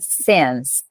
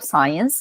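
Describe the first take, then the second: First: The vowel is a short 'i', as in sit. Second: The vowel sounds like 'eye', as in science. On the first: The speaker calls it right. "a pronúncia correta dessa palavra é since" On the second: The speaker calls it wrong. "Eu não falo science, muita gente fala science"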